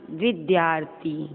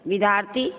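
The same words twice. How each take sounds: First: "विद्यार्थी" slowly, as vid-yaar-thi; slow, complete "विद्यार्थी"; full dy cluster. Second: "विद्यार्थी" as vidaarthi, no y; rising vi-daar-thi for "विद्यार्थी"; dropped y. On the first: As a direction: sound the y after d in "विद्यार्थी", falling. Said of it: "शुद्ध". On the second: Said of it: "अशुद्ध, अशुद्ध". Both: Shown as a demonstration.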